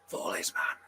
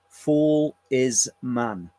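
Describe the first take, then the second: First: It imitates the eerie recorded voice. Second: It is said in the speaker's normal voice.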